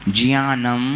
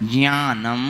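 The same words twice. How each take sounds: Both takes have the same delivery.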